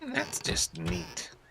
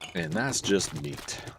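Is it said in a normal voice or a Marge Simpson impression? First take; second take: Marge Simpson; normal voice. First: It is said in a Marge Simpson voice. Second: It is said in his normal voice.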